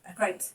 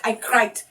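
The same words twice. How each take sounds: First: Said in the usual way. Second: "cried" drawn out and pressed hard; "cried" said louder, with full emphasis; stress on CRIED. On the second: Real, not acted. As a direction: insist on the word "cried". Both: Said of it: "No, no, no, I cried".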